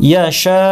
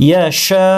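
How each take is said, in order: Both takes have the same delivery.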